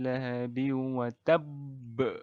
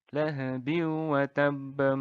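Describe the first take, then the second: First: The word stops with a strong bouncing final b. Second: The final b runs smoothly into the next word. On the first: The recitation stops at the end of the verse. "qalqalah kubro itu wa tabb ... Itu kalau berhenti" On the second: The recitation continues into the next verse. "kalau diteruskan ... Maka ini tidak jadi qalqalah"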